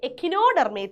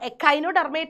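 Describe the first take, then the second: First: The second syllable is said as 'ki'. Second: The second syllable is said as 'kai'. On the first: This is the form used in Malayalam medium. "Malayalam മീഡിയംകാർക്ക് എക്കിനോഡെർമേറ്റ എന്നാണ്" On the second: This is the form used in English. "ഇംഗ്ലീഷിൽ miss പറഞ്ഞു പറഞ്ഞ് ശീലിച്ചത്"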